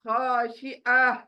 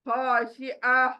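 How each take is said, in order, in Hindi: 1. यह शब्द हल्की साँस वाली h ध्वनि से खत्म होता है। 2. यह शब्द हल्की साँस वाली h ध्वनि से खत्म होता है।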